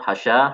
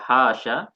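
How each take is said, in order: First: The vowel after the h sound is short. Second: The vowel after the sh sound is short. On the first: "hanya yang pendek" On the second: "sinnya pendek"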